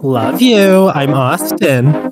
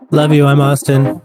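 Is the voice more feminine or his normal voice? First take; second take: more feminine; normal. First: It is said in a more feminine voice. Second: It is said in his normal voice.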